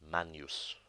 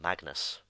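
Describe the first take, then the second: First: The middle has an ng sound before n. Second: The middle has a plain hard g before n. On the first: The speaker calls it right. "it's actually pronounced manus" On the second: The speaker calls it wrong. "commonly mispronounced magnus"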